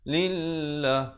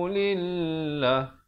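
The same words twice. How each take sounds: First: The final vowel is cut short. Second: The final vowel is cut short.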